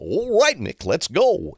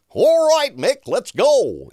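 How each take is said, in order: First: It is said at a normal, close-up volume. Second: It is called out loudly, as if far away.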